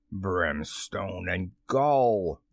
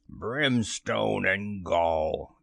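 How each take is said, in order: First: Low, very slow pirate oath; drawn-out villainous curse; thundering. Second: Very slow, mimicked pirate oath; slow mock-villain bluster; Hook. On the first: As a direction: roll the oath out wrathfully. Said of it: "thundered Hook". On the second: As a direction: retort with a drawn-out curse. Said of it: "the voice retorted". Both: A narrator's reading.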